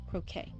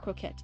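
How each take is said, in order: First: The word ends with an 'ay' sound. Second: The word ends with an 'et' sound. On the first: The speaker calls it right. "it's croquet" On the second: The speaker calls it wrong. "It's not croquette"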